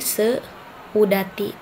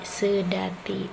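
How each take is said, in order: First: The 'e' and 'u' are said as separate vowels. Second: The 'eu' is said as one single vowel. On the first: The speaker calls it wrong. "bukan seudati" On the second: The speaker calls it right. "tidak dipenggal antara e dengan u-nya"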